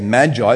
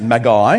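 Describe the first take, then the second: First: The word is said with an English pronunciation. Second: The word is said with a Greek pronunciation. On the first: "but we say magi" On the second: "in Koine Greek we pronounce it magi"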